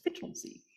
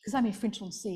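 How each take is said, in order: First: Soft, half-whispered mock posh English accent on Frinton-on-Sea. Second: Said in the usual way. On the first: Shown as a demonstration. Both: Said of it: "you have to say it with a posh voice".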